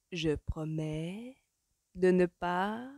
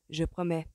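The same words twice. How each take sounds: First: Very slow, words drawn out; dragged out. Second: Unconvincing, reluctant promise; half-hearted. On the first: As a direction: promise reluctantly, stretching each word. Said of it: "comme pour faire jaillir les paroles". (promesse traînante, arrachée mot à mot) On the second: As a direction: promise without any conviction. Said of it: "du bout des lèvres". (du bout des lèvres) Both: A narrator's reading.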